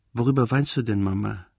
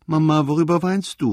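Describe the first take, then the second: First: Said in the usual way. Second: Put-on higher, louder, whining child's call; tearful cry. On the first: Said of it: "sagte er nun völlig erwacht". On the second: A narrator's reading. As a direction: call out plaintively like an upset child. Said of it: "rief er mit weinerlicher Stimme". (weinerlich gerufen, hoch und laut)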